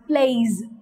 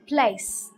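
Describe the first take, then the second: First: The word ends in a buzzing z sound. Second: The word ends in a hissing s sound. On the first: The speaker calls it wrong. "some people tend to use z sound instead of s sound, as in plays. That is wrong" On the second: The speaker calls it right. "The correct pronunciation is place"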